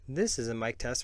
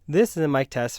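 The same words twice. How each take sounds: First: The voice is picked up from the top. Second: The voice is picked up from the front. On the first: "from the top" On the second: "from the front"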